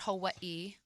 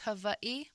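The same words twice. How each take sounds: First: The W is pronounced as a plain W. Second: The W is pronounced like a V. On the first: This is the usual American pronunciation. The speaker calls it wrong. "but for your sake, I'll call it Hawaii" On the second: This is the native Hawaiian pronunciation. The speaker calls it right. "In in Hawaiian, the W is pronounced like a V"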